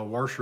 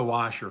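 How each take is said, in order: First: "washer" with an added R, as WAR-sher; Oklahoma "warsher". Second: "washer" with no R in the first syllable; usual "washer". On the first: Newcomer showing local speech, "washer" turned into "warsher". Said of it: "I know washer down here". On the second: Newcomer giving their own word, "washer" without the extra R. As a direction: say "washer" as WAH-sher. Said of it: "It's a washer for me". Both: Shown as a demonstration.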